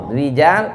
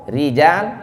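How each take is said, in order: No difference in how they are said.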